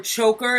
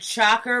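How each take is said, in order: First: "choker" with a clear ch sound; choker, starting on ch like chew; saying choker. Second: Shocker, starting on sh like shoe; saying shocker. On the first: Mocking the senator over a word, choker with ch. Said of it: "why the emphasis on the word choker". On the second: Retelling the alleged slip, shocker with sh. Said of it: "said he said shocker". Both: Retold or imitated.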